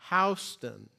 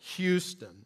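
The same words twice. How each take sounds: First: It is said the New York local way. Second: It is said the Texas way. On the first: This is the name of the street in Manhattan. "It's pronounced Houston" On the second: This marks the speaker as not being local. "as we do here in Texas"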